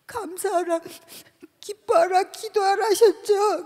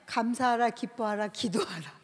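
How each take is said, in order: First: A tearful protest to God, voice breaking; crying plea. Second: Said in the usual way. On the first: Retold or imitated. Pleading tearfully with God at the prayer retreat.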